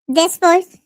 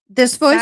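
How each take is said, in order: First: It is said in a SpongeBob cartoon voice. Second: It is said in a normal voice.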